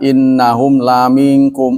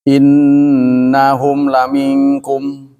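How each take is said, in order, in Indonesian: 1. Vokal pada 'la' dibaca panjang. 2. Vokal pada 'la' dibaca pendek.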